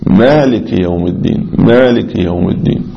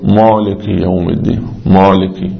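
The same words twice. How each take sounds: First: مالك with a light, short ميم; correct recitation. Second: مالكي with a heavy, rounded ميم; wrong recitation. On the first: Teacher modelling correct recitation for students. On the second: Teacher imitating a faulty Fatiha reading. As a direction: stretch the ميم in مالكي like a mistake. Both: Shown as a demonstration. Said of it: "لا، هي ميم خفيفة".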